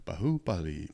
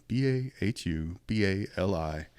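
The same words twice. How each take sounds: First: Said in the usual way. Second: B A H U B A L I spelled letter by letter, slowly. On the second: Shown as a demonstration.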